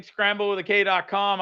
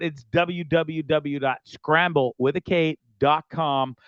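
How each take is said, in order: First: Said in the usual way. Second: "scramble with a K" spelled out slowly, K stressed; slow spelled-out web address. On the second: Shown as a demonstration. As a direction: spell out "W W W dot scramble with a K dot com" slowly, leaning on K. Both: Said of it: "repeat of website".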